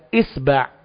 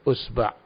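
First: The word begins with an 'i' vowel. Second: The word begins with a 'u' vowel. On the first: This is the classical standard reading. "Itu semua bacaan fushah tentang jari" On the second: This is a dialect reading. "Itu adalah bacaan dialek tentang jari"

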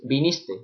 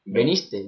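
First: The first vowel is pronounced as i. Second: The first vowel is pronounced as e. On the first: The speaker calls it right. "Yo siempre digo viniste" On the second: The speaker calls it wrong. "la gente suele decir veniste"

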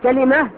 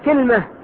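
First: First vowel a, second vowel i: kalima. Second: First vowel i, no vowel after l: kilma. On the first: "كلمة بفتح الكاف مع إيش؟ مع كسر اللام" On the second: "ولغة ثالثة كسر الكاف مع سكون إيش؟ اللام"

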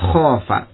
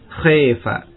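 First: The long vowel is a plain open a. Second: The long vowel is tilted toward e.

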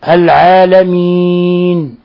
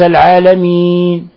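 First: The final n sound is clearly pronounced. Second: The final n sound is swallowed and barely heard. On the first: The speaker calls it right. "بيان النون" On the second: The speaker calls it wrong. "وليس العالمين"

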